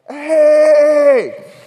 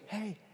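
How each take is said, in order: First: It is screamed loudly. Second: It is said calmly and quietly.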